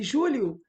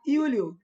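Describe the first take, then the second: First: The name begins with a zh sound. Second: The name begins with a y sound.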